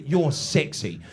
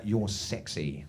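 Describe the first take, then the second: First: Dry, sarcastic "You're sexy". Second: Low, hushed "You're sexy"; soft flirty compliment. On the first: British wife mocking her naked husband, sarcastic. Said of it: "I picked up on all the sarcasm". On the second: Wife softly telling her husband he's sexy. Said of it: "my wife said to me". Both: Retold or imitated.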